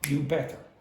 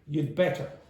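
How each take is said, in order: First: No 'd' sound follows 'you'. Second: A short 'd' sound follows 'you'. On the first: "the had will disappear and you just get you better" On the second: "they say it quickly and they'd say something like this"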